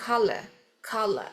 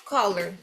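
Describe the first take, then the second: First: Color said without the final R, colah; British color, drop the final R; color pronounced with no R at the end. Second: Color said with the final R, koler; American color ending in an R sound; Color pronounced with the R at the end. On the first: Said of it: "não vai pronunciar o R do final". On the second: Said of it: "Como é que fala cor?". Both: Shown as a demonstration.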